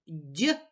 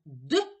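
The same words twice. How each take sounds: First: «дь» palatalized, a soft dy; soft consonant sound. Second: «д» as a short hard d, not palatalized; hard consonant sound. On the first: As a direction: say «дь» alone with the tongue raised for a soft d. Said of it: "м'який приголосний". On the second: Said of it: "твердий приголосний". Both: Shown as a demonstration.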